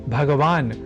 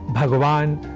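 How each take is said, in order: First: The word ends with a vowel after the consonant. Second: The word ends on a bare final consonant. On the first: This is the newer adapted form of the word. "Hindi आदि भाषाओं में ... इन रूपों में स्वीकारा जाने लगा है" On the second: This is the original form of the word. "हलंत शब्दों"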